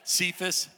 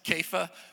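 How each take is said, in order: First: The name begins with an S sound. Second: The name begins with a K sound. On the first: The speaker calls it wrong. "I've always called it Cephas" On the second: The speaker calls it right. "I'm guessing you're right, Kepha"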